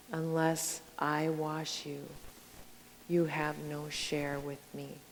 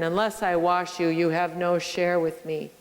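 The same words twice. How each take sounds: First: Softer, slow and tender; quiet, gentle Jesus. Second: Firm, full-voiced and stern; stern Jesus. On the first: Retold or imitated. Jesus answering Peter, soft and tender. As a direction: say it as a gentle invitation. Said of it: "Jesus might sound, sound stern". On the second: Jesus warning Peter, a touch of sternness. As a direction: lay down the condition sternly. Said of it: "sound stern".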